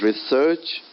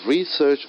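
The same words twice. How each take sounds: First: "research" stressed on SEARCH, as a verb; re-SEARCH, the verb form; second-syllable stress. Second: "Research" stressed on RE, as a noun; RE-search, the noun form; first-syllable stress. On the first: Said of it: "research is verb". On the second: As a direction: lean on the "Re" of "Research". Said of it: "first syllable". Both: Shown as a demonstration.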